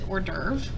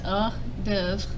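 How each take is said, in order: First: It is pronounced the English way. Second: It is pronounced the French way. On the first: "We use this word in English, but we pronounce it hors d'oeuvre" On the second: "But in French, it's pronounced les hors d'oeuvre"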